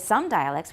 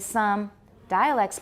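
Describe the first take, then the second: First: Only the first word carries strong stress. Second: Both words carry strong stress. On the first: The speaker calls it wrong. "we don't say some dialects" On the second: The speaker calls it right. "Both get stressed because dialects is new"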